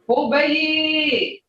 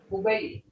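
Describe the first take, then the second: First: The word is said with a changed tone. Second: The word is said with its plain tone. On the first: The place is very far away. "Hear that tone? That changes a meaning" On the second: The place is only a short way off. "not that far"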